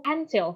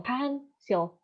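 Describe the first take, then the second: First: Said in the usual way. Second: Pencil broken in two, "pen, sil"; split into syllables. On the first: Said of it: "So for example". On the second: Shown as a demonstration. Lecturer showing syllables to students, pencil said as two separate parts. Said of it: "Pen is the first syllables".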